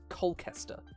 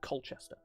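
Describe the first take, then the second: First: The middle 'ch' is said as a 'k' sound. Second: The middle 'ch' is said as a 'ch' sound. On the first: The speaker calls it wrong. "Americans will pronounce English towns with a C H as just a C" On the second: The speaker calls it right. "it's pronounced exactly as it's spelled"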